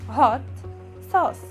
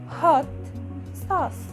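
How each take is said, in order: Both takes have the same delivery.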